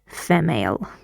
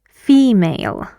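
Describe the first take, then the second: First: The first vowel is a short 'eh' sound. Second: The first vowel is a long 'ee' sound. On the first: The speaker calls it wrong. "We don't say female because that's wrong" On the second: The speaker calls it right. "the vowel sounds like long E"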